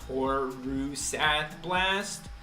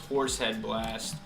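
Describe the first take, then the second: First: The first word sounds like 'horusath'. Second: The first word sounds like 'horsehead'. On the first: This is the official name. "it's actually pronounced Horusath Blast" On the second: This is how players commonly say it. "now vernacularly pronounced as Horsehead Blast"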